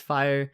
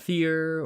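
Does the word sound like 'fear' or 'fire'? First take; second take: fire; fear. First: The word has a long 'eye' vowel, like 'fire'. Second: The word has a single vowel, like 'fear'. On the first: The speaker calls it right. "It is fire" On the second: The speaker calls it wrong. "It's not fear or something like that"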